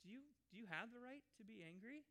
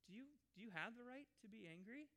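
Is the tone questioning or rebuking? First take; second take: questioning; questioning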